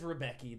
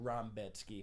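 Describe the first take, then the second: First: The middle consonant is a plain k sound. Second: The middle consonant is a ts sound. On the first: This is how the name looks when written. The speaker calls it wrong. "It says Rebecki" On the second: This is how the name is actually pronounced. The speaker calls it right. "They pronounce it Rambetsky"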